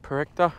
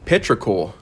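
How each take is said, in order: First: The word ends in an 'uh' sound. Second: The word ends in a 'kor' sound. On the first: The speaker calls it wrong. "I'm probably pronouncing it 100% incorrect" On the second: The speaker calls it right. "it's actually petrichor"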